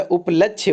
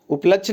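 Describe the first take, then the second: First: उपलक्ष्य with its final ye sounded; correct form up-lachh-ye. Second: उपलक्ष्य cut off as up-lachh; wrong form up-lachh. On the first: Teacher giving the correction, उपलक्ष्य as up-lachh-ye. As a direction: finish उपलक्ष्य on a ye syllable. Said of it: "उपलक्ष्य होता है". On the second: Teacher rejecting the mistake, उपलक्ष्य as up-lachh. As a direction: leave the final syllable off उपलक्ष्य. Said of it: "उपलक्ष्य नहीं होता". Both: Shown as a demonstration.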